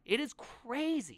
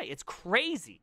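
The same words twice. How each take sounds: First: "crazy" drawn out slow and high; emphatic repeat. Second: Said in the usual way. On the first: Real, not acted. Developer marvels at who he worked with, emphatic. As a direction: stretch "crazy" with a big pitch swoop.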